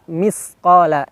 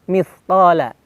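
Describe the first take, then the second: First: The middle consonant is a plain s. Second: The middle consonant is a lisped th. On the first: The speaker calls it wrong. "hati-hati berubah menjadi sa" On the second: The speaker calls it right. "mithqala ini dengan sa"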